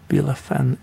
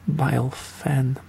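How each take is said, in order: First: The name is read letter by letter, phonetically. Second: The name is read with English pronunciation. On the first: "it's more likely Bilefin if you read this phonetically" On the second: "or Bilefin if you reading this in English"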